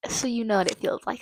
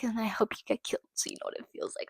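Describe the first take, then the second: First: Said in the usual way. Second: Voiceless hissed-out repeat; whispered. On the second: Real, not acted. Wishing the killer harm, repeated in a voiceless whisper. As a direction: drop to a bare whisper on the repeat.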